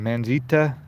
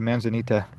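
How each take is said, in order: First: The word is said with three syllables. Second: The word is said with four syllables. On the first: The speaker calls it wrong. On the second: The speaker calls it right.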